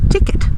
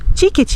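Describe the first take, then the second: First: It is said with an English pronunciation. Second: It is said with a Brazilian Portuguese pronunciation. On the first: "em vez de dizer" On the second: "Nós diremos"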